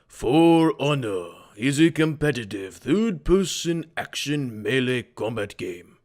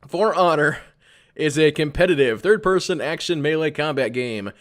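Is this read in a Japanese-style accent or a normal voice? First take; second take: Japanese; normal. First: It is read in a put-on Japanese accent. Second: It is read in the speaker's ordinary accent. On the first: "Should I do this in like a Japanese voice? Go like" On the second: "I'll do it in the normal voice"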